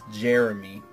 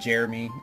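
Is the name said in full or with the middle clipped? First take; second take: full; clipped. First: The name is said in full. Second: The middle of the name is clipped, Midwest-style.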